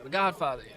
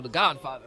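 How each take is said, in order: First: The Godfather in a pitched-up soul-singer rasp; hammed-up soul-singer catchphrase. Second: Said in the usual way. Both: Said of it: "just kept talking like James".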